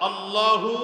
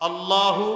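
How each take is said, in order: No difference in how they are said.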